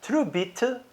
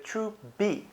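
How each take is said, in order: First: Truebit with the final t sounded out; fully sounded ending. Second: Trubi, softer, ending in bee; dropped final t. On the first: Showing what they don't say, final t fully sounded in Truebit. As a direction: release the t at the end of Truebit. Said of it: "don't pronounce the it part". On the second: Showing how they pronounce it, Trubi with no final t. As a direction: drop the t and end Trubi on bee. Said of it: "So they pronounce Truebit". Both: Shown as a demonstration.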